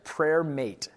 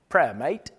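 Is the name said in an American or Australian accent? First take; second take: American; Australian. First: It is said in the speaker's normal accent. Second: It is said in an imitated Australian accent.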